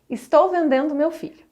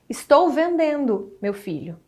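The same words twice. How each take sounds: First: It runs on without a pause before meu filho. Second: There is a pause before meu filho.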